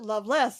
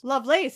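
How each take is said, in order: First: The second syllable sounds like 'less'. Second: The second syllable sounds like 'lace'. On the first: This is how most other people say it. "as everybody else pronounces it" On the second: This is how the character herself says it. "as she pronounces it"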